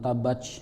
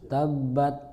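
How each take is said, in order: First: It ends in a ch sound. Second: It ends in a t with a light puff. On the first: The speaker calls it wrong. "bukan tabach" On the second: The speaker calls it right. "ta itu ada hamesnya, ada hembusnya"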